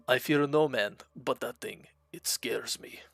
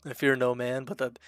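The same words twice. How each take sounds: First: Put-on Russian accent, fading to a whisper at the end; lightly done Russian accent, ending in a whisper; better Russian accent. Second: Put-on louder first try at a Russian accent, barely there; faint attempt at a Russian accent; Russian accent quote. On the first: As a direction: redo the Heavy's line in a Russian accent, dropping to a hush. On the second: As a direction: go for the Heavy's Russian accent and stumble. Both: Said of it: "That was a little better".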